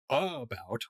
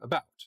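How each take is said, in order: First: The first vowel is a clear, full uh. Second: The first vowel is weak and reduced. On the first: "instead of saying" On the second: "There's just less of an accent"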